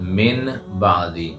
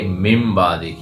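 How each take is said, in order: First: The first word ends with an n sound. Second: The first word ends with an m sound. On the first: This is how it is written. The speaker calls it wrong. "असल में है मीम जेर नून मिन" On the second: This is how it is recited. The speaker calls it right. "हम पढ़ेंगे मिम बादी"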